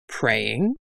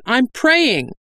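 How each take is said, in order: First: Low, softer rising question; curious query. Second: High-pitched defensive announcement; ringing out. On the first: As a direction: echo the word with puzzled interest. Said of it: "Lomo called down the cliffside". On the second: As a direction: insist in a much higher voice. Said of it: "Dahl's voice rang out". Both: A narrator's reading.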